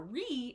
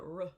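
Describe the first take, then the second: First: The syllable has a full, clear vowel. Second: The syllable has a reduced schwa vowel. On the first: The speaker calls it wrong. "this sound is not a re" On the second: The speaker calls it right. "it's a r. ... This is the schwa"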